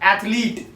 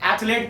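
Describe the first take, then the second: First: The last syllable sounds like 'leet'. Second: The last syllable sounds like 'let'. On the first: The speaker calls it right. "इसकी actual में pronunciation है एथलीट" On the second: The speaker calls it wrong. "एथलेट पढ़ते हैं इसको"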